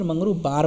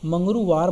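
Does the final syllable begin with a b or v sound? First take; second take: b; v. First: The last syllable begins with a b sound. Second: The last syllable begins with a v sound. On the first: "व का ब हो सकता है" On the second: "मंगरुवार बोलेगा"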